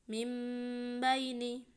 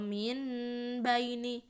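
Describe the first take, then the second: First: An m sound comes before the b. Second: An n sound comes before the b. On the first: The speaker calls it right. "dibaca menjadi mim sukun dan dengung" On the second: The speaker calls it wrong. "jangan min baini"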